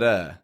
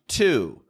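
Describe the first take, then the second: First: It has a light flapped T and a weak vowel. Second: It has a clear T and a full vowel. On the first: The speaker calls it right. "just a light, quick T sound, like a da" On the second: The speaker calls it wrong. "always pronounce it clearly like to"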